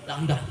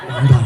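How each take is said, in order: First: Said in the usual way. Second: "Dandan" said again much louder; louder repeat. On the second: Real, not acted. Preacher repeating "Dandan" loudly after the crowd asks. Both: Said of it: "Apa katanya?".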